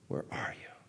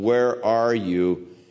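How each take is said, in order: First: It sounds sobbing, like a heartbroken father. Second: It sounds stern, like an arresting officer.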